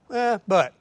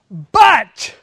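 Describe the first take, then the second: First: The word is said plainly and quietly. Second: The word is shouted loudly and emphatically. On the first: It marks an ordinary, minor contrast. "normal, little simple contrast" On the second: It marks a big, important contrast. "reaches up and shouts to us... from a Baptist preacher"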